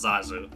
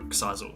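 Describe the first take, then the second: First: The name begins with a Z sound. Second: The name begins with a KS sound. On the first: The speaker calls it wrong. "isn't meant to be pronounced as Zazu" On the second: The speaker calls it right. "the Finnish way"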